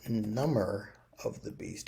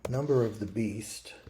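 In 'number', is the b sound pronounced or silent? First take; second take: silent; pronounced. First: Number sounds like numb-er, with silent b. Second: The b in number is pronounced. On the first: It means something that numbs a beast. "if you pronounce it number of the beast, it might be something that numbs a beast" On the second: It refers to the phrase from the Bible. "from the Bible"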